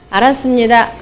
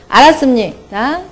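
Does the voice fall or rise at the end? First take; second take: falls; rises. First: The voice stays flat or falls at the end. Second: The voice rises at the end. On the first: "처음에는 기분이 굉장히 나쁜 상태에서" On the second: "끝만 올리면 돼요"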